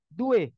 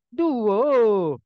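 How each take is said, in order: First: The word ends in an e vowel. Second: The word ends in an o vowel. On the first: This is how Betawi speakers say it. "Kalau orang Betawi" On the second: This is how Sumatran speakers say it. "kalau kembali ke Sumatera"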